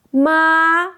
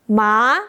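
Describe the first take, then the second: First: "Ma" held long and level; first-tone "Ma", sustained; high flat tone. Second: "ma" starting low and sliding up; second-tone "ma", like a question; rising tone. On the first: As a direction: hold "Ma" steady on a high pitch, no dip. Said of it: "Start high, stay flat". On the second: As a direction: lift "ma" smoothly from low to high. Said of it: "low to high". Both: Shown as a demonstration.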